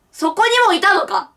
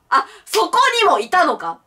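First: に of そこに stressed, falling end. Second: そ of そこ stressed first, falling end. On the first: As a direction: lean on に in そこにも. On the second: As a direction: open hard on そこ. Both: Shown as a demonstration. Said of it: "そこにもいたのかって何？".

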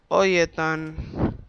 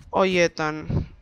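First: Drawn out very slowly; lazy slow call; slow drawl. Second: Said in the usual way. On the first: Shown as a demonstration. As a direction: stretch every syllable of "Oye, Ethan".

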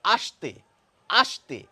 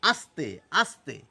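First: আস্তে said as a-sh-te, the s turned into sh; sh sound. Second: আস্তে with a crisp English s, a slow a-s-te; dental s, slow. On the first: Teacher shows students আস্তে meaning come, with sh. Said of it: "এস এইচ এর মতো করে". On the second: Teacher shows students আস্তে meaning slow, with a clear s. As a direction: lean on the hissing s in আস্তে. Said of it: "ইংরেজিতে বললে এস এর মতো". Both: Shown as a demonstration.

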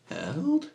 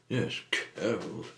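First: High, loud, rising yelp of disbelief; startled question. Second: Said in the usual way. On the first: Acted. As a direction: echo it back in shocked surprise. Startled echo of the other's word.

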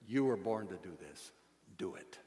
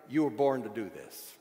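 First: Low, soft repeat that sinks away; hushed charge. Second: "you were born to do this" at full voice, falling in pitch; emphatic charge. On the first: Preacher closing his charge to listeners, quietly. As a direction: bring it right down for the closing exhortation. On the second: Preacher charging listeners, "you were born to do this" said firmly. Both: Real, not acted.

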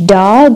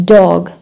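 First: "dog" with an open "ah", like "dahg"; American open vowel. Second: "dog" with a long "aw", like "dawg"; American AW vowel. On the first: Teacher showing American option for "dog", "dahg". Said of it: "ال Americans كيف بيلفظوا ال dog". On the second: Teacher showing second American option for "dog", "dawg". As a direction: draw out "dog" slowly as "dawg". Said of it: "ما بيحكوا dog as British". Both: Shown as a demonstration.

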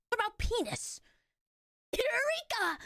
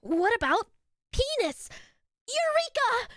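First: High, breathy anime exclamation; anime character. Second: Imitating an anime character. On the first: Acted. Playing her own clip, anime-style cry. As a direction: announce it like an excited anime hero. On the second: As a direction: echo the clip with a brighter anime lilt. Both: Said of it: "Why did I say it like an anime character?".

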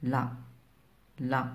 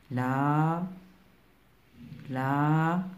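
First: "لا" with a short, quick a; short vowel demo. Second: "لا" with a stretched aa; long vowel demo. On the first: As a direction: cut the a in "لا" short. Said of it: "لأن زمن نطقها قصير". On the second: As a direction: hold the a in "لا" long. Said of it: "لأن زمن نطقها طويل". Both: Shown as a demonstration.

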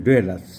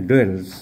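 First: "duellus" said in full with its "-us" ending; actual English pronunciation. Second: "duels" said the simplified, easy way; easy pronunciation. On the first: Doctor corrects the rubric word for viewers, English pronunciation of "duellus". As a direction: sound out "duellus" as doo-el-us. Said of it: "the actual English pronunciation is". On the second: Doctor simplifies a rubric word for viewers, easy pronunciation of "duels". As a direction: say "duels" as two run-together syllables, no "us" ending. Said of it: "easy pronunciation". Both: Shown as a demonstration.

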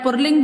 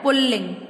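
First: "पुल्लिंग" as "pur-ling", with r; wrong pronunciation. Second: "पुल्लिंग" as "pul-ling", double l; correct pronunciation. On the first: Retold or imitated. Teacher imitating how children say it, mispronounced. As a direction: say r for the first l in "पुल्लिंग". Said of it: "जैसे आप पुल्लिंग बोलते हो". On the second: Shown as a demonstration. Teacher showing what we must say, correctly pronounced. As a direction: lean on both l's in "पुल्लिंग". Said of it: "हमें क्या बोलना होता है?".

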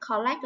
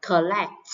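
First: "Collect" with a full O in the first syllable; mispronounced first vowel. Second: "collect" with a short uh in the first syllable; short schwa. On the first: Teacher showing a common mistake, "Collect" with a full O. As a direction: say "Collect" wrongly as kaw-lect. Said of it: "phiên âm chữ O là sai nhá". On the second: Teacher modelling the right way, "collect" with a short schwa. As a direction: say "collect" as kuh-LECT. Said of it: "Từ này được phiên âm là ơ ngắn nè". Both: Shown as a demonstration.

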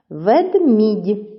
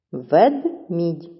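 First: Said in the usual way. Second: "Ведмідь" with a gap after Вед; teacher dividing "Ведмідь" into two separate syllables; split into syllables. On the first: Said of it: "наголошений другий склад". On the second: Shown as a demonstration. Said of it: "чи правильно поділили".

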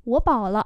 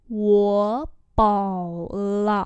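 First: Said in the usual way. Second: Each syllable drawn out slowly; slow teaching repeat. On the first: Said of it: "normal model". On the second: Shown as a demonstration. Teacher slowly models the phrase for students, drawn out. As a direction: spell it out slowly for learners. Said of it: "slow repeat".

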